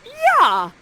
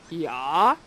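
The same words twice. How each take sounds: First: Much higher, loud excited yeah; eager yeah. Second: Lower, questioning yeah; dopey Ferdinand. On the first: Ferdinand accepting Miranda's proposal, loud excited yeah. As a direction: shout it like a thrilled boy. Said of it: "And Ferdinand is like". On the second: Ferdinand answering Miranda's call, low puzzled yeah. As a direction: answer like a distracted boy. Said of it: "And Ferdinand says". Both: Acted.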